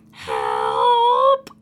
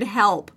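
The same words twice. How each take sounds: First: High howled help, rising like a dog's whine; a dog's drawn-out, high yelp shaped like "help"; funny dog noise. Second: Said in the usual way. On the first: Retold or imitated. Mom imitating her dog stuck on his back, funny dog noise. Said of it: "made this funny dog noise that". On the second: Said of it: "saying the word help".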